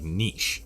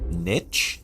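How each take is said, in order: First: The word rhymes with quiche. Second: The word does not rhyme with quiche.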